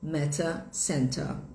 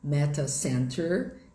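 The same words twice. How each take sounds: First: It ends in a vowel with no r. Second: It ends with a clear r sound. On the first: "inglês britânico" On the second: "em inglês americano"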